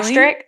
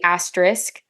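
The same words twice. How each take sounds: First: The middle S sound is left out. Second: The middle S sound is clearly pronounced. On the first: The speaker calls it wrong. "without the S" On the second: The speaker calls it right. "It's supposed to be asterisk"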